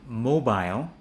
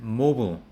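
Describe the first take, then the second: First: British mobile as 'mo-bile', rhyming with aisle; British pronunciation. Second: American mobile as 'MO-bul'; American pronunciation. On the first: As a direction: say mobile the British way, full 'bile'. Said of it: "in a British accent". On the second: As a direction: say mobile the American way, weak second syllable. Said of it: "but in an American accent". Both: Shown as a demonstration.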